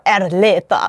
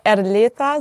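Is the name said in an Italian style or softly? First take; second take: Italian style; softly. First: The name is said with an Italian sound. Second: The name is said softly and gently. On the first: "als wäre es italienisch" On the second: "so ein bisschen weicher"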